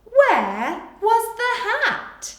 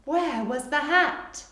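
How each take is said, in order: First: Very slow, high and loud dictation; slow dictation read. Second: Slow repeat with a rising end; gentle slow dictation; slower repeat. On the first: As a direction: spell out each word for children writing. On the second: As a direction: say it again slowly for writers. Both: Shown as a demonstration. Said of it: "You can pause here".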